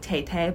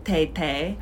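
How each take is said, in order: First: The first consonant is a plain T sound. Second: The first consonant sounds between T and D. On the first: "it sounds like tay-tay" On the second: "kind of like a T and a D sound"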